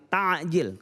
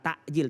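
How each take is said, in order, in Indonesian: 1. Konsonan tengahnya bunyi 'ain' dari tenggorokan. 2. Konsonan tengahnya hamzah. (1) "tapi kalau ain mempercepat" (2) "Bukan takjil ... Kalau pakai hamzah"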